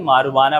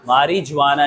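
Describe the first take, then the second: First: The 'j' sound is left out entirely. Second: The 'j' sound is pronounced in the middle. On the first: The speaker calls it right. "जे जो है वो silent होता है" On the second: The speaker calls it wrong. "मारिजुआना नहीं"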